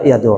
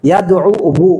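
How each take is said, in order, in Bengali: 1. শব্দটি একটি সাধারণ দীর্ঘ স্বরবর্ণে শেষ হয়। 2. শব্দটি শেষে একটি অতিরিক্ত 'wu' অক্ষর নিয়ে শেষ হয়। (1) "এই জন্য ওকে সাকিন করা হলো, ফলে হলো ইয়াদু।" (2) "এইভাবে আইনের পরে হু উচ্চারণ করা কঠিন।"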